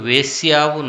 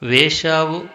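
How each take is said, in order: First: A y glide is heard before the ending. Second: No y glide is heard before the ending. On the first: The speaker calls it wrong. "అని పాడుతున్నారు" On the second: The speaker calls it right. "అని పాడటానికి బదులుగా అలా పాడుతున్నారు"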